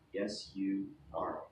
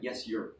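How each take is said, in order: First: 'You are' is said as two full words. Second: 'You are' is contracted into one syllable. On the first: The speaker calls it right. "Always three words" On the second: The speaker calls it wrong. "Notice that we don't say yes, you're"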